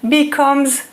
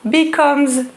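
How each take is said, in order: Both takes have the same delivery.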